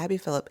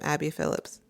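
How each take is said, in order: First: The surname ends without any s sound. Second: The surname ends with an added s sound. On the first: The speaker calls it right. "I always want to add an S to it, but" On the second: The speaker calls it wrong. "I'm saying it wrong"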